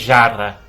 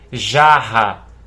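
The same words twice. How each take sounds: First: The middle r is said as a single r. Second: The middle r is said as a double r. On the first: The speaker calls it wrong. "Você não vai ler jarra" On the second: The speaker calls it right. "R dobrado"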